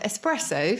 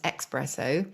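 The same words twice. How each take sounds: First: The first syllable sounds like 'es'. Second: The first syllable sounds like 'ex'. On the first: The speaker calls it right. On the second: The speaker calls it wrong.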